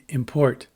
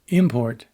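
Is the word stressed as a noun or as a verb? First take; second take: verb; noun. First: The stress falls where the verb puts it. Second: The stress falls where the noun puts it. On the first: It names an action. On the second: It names a thing.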